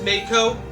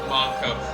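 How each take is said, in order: First: The first vowel sounds like 'ay'. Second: The first vowel sounds like 'ah'. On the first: The speaker calls it wrong. "making the A as an actual A" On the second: The speaker calls it right. "the proper way of saying it"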